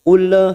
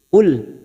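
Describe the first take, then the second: First: The final l bounces with an echoing release. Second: The final l is held still without bouncing. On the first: The speaker calls it wrong. "itu namanya tawalud, bukan qalqalah, dan itu tidak diperbolehkan" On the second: The speaker calls it right. "Kita hanya masuk qul"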